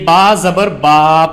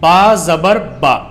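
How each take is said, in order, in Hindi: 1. आखिरी स्वर खींचकर लंबा पढ़ा जाता है। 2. आखिरी स्वर छोटा और जल्दी से पढ़ा जाता है। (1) "एक कॉमन मिस्टेक होती है जो सभी बच्चे करते हैं" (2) "आपको इसको खींचना नहीं है, बल्कि आपको इसको एकदम पढ़ना है"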